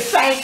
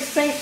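First: The word has an older regional pronunciation. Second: The word has its standard pronunciation. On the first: This is how the older generation said it. "they say saint" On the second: This is not how the older generation said it. "They don't say saint"

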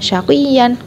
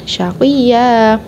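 First: The word ends in a short vowel plus n. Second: The word ends in a long drawn-out a vowel. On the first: The speaker calls it wrong. "bukan syaqiyan" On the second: The speaker calls it right. "panjang dua harokat"

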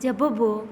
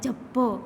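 First: Each letter is sounded as its own syllable. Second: The doubled consonant is joined into one cluster. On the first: "આખો વાંચીએ એટલે શું થાય?" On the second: "અડધો બોલીએ તો શું થાય?"

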